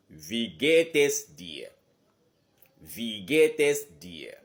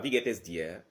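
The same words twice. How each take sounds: First: Slow, loud Wie geht es dir, tune rising on geht then falling. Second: Said in the usual way. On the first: Shown as a demonstration. Teacher shows the tune of wie geht es dir. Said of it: "le ton monte et le ton descend". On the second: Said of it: "Ce n'est pas".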